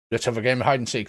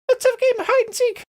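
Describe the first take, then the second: First: Said in the usual way. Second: Tiny, very high pixie voice; squeaky pixie. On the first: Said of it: "we're big at the minute". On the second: Acted. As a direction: squeak it like a little flying pixie. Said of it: "They come over and go".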